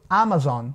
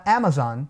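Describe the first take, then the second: First: "Amazon" with a Portuguese open A; common mispronunciation. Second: "Amazon" starting with a short English A, as in cat; correct English vowel. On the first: Retold or imitated. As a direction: imitate learners saying "Amazon" as AH-mazon. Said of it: "esse som aberto de A". ("Amazon" com A aberto de português) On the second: Shown as a demonstration. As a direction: say "Amazon" as AE-muh-zon. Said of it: "o A nunca vai ter". ("Amazon" com A curto do inglês)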